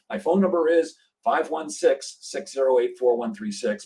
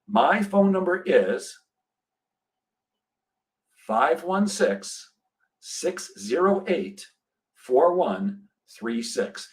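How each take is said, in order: First: There is no long pause after 'is'. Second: There is a long pause after 'is'.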